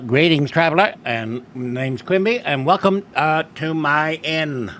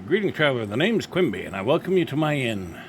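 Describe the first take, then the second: First: It is said in a Mayor Quimby impression. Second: It is read in the speaker's own voice.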